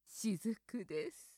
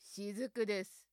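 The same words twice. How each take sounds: First: It is said in a sexy, seductive voice. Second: It is said in a villainous, menacing voice. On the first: "セクシーに" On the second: "悪役っぽく"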